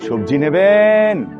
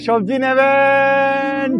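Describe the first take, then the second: First: It is called in a standard, formal accent. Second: It is called loudly in a regional accent. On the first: The speaker calls it wrong. "বেশি শুদ্ধ হয়ে যাইতেছে" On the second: The speaker calls it right. "একটু আঞ্চলিক ভাবে উচ্চ স্বরে ডাকো"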